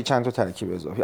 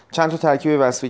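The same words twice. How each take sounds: First: پرسش دوم را تند و کوتاه بپرس و «اضافی» را برجسته کن; تأکید روی اضافی. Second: «وصفی» را پررنگ و با صدای بالاتر بگو; روی کلمهٔ «وصفی» فشار بیاور; تأکید روی وصفی. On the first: (پرسش دوم با تأکید سبک بر «اضافی») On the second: (پرسش اول با تأکید بر «وصفی») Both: Shown as a demonstration. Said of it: "چه نکتهٔ قشنگی داریم".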